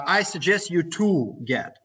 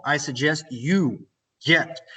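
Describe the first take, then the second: First: Slow, with "to" drawn out; stress on TO. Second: Slow, "you" drawn out straight into "get"; stress on YOU. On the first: Teacher shows a common mistake, dragging out "to". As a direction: pick out the extra "to" before "get". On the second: Teacher models the correct form, stretching "you". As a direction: lengthen "you", then land on "get". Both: Shown as a demonstration. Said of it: "This would be wrong".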